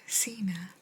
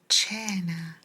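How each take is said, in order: First: It is pronounced like the English surname. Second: It is pronounced with the Italian sounds. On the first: It sounds like the wrestler's name. The speaker calls it wrong. "If I put the word John in front of this, ... It's not cena" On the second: It is the Italian word for dinner. The speaker calls it right. "it's cena"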